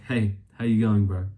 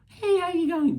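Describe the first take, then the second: First: It is said in a normal voice. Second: It is said in a squeaky voice.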